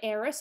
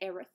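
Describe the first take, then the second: First: The name ends with an s sound. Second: The name ends with a th sound. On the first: This is how the speaker usually says it. "I say heiress" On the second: This is how the speaker does not say it. "I don't say Aerith"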